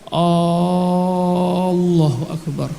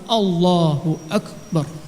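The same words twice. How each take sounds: First: The vowels are stretched out long. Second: The vowels are kept short and direct. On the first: The speaker calls it wrong. "dia memanjangkan" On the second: The speaker calls it right. "langsung ... tanpa memanjangkan"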